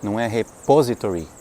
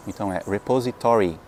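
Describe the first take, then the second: First: Repository said with a Brazilian h at the start, stressed on "re"; the wrong Brazilian repository, mocked. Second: Repository stressed on "to"; the right stress on repository, said by a teacher; correct stress. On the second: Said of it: "A sílaba tônica cai no to". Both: Shown as a demonstration.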